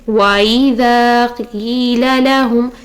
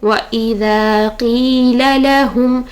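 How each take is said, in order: First: The two vowels run together without a stop. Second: The two vowels are separated by a glottal stop. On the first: The speaker calls it wrong. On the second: The speaker calls it right.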